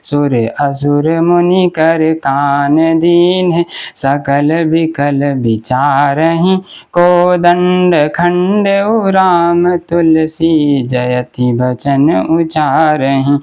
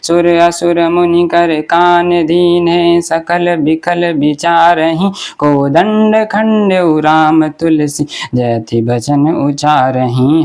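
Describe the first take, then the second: First: The verse is recited slowly. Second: The verse is recited fast.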